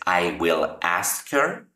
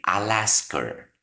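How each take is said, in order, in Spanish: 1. Cada palabra se dice por separado y completa. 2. 'I will' se une en una sola sílaba contraída. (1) "que cuesta trabajo pronunciar cada uno de los fonemas de cada palabra" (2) "simplemente puedes decir I'll ask her"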